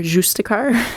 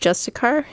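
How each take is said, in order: First: It is pronounced with a French accent. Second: It is pronounced the plain English way.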